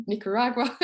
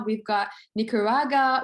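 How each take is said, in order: First: "Nicaragua" said again in full as nick-ar-AG-wa through a little laugh; getting "Nicaragua" right on the second go while laughing; laughing retry. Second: "Nicaragua" tripped over, said like nick-ar-AH-ga with the w dropped; garbling the name "Nicaragua" as nick-ar-aga; fumbled Nicaragua. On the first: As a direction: try "Nicaragua" once more and land it, laughing. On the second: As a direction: stumble through "Nicaragua" without getting it out. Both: Real, not acted. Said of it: "I can't even say it".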